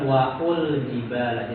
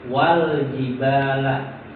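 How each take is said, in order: First: An u vowel is sounded before the l. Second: The alif is silent, with no vowel before l. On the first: The speaker calls it wrong. "bukan waul jibala" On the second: The speaker calls it right.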